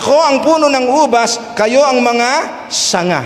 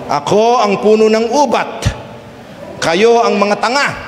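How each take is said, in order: First: The s sounds are pronounced as clear s sounds. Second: The s sounds are pronounced as t sounds. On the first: The speaker calls it right. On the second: The speaker calls it wrong.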